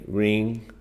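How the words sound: The voice stays flat and dull on the word. The speaker calls it wrong. "that was a very boring way to say it"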